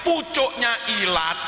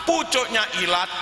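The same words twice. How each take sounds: The two takes are said the same way.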